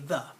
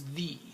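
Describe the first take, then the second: First: The vowel is a weak schwa. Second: The vowel is full and clear. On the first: This is the way it is said today. "But now we say the, it's a schwa" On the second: This is the old way of saying it. "It used to be a long time ago, people would say this was the"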